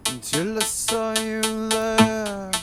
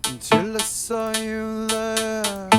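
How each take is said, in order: Both takes have the same delivery.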